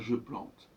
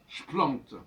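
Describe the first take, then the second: First: The vowel of "je" is pronounced. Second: The vowel of "je" is dropped. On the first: The speaker calls it wrong. "pas je plante" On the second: The speaker calls it right. "normalement, j'aurais dire avec fougue"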